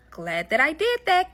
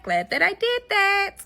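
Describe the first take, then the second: First: Said in the usual way. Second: Smug sing-song echo; pleased with herself, drawn out high; higher, slower gloating repeat. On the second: Shown as a demonstration. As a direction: stretch it out up high, savoring it.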